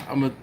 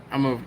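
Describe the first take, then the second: No difference in how they are said.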